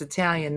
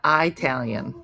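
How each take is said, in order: First: Said in the usual way. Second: "Italian" with a long first vowel, EYE-talian; long-I pronunciation. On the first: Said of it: "not Italian". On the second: Shown as a demonstration. Quiz taker corrects a pronunciation, long-I pronunciation. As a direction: open "Italian" on the word "eye". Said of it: "It's Italian, not".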